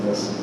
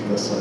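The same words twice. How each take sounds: The two takes are said the same way.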